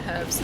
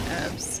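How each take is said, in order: First: The word starts with an audible h sound. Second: The word starts directly with a vowel sound. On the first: "we pronounce the H in herbs" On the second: "not herbs"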